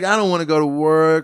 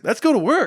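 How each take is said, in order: First: It is said in a lethargic, low-energy way. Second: It is said in an energetic, lively way.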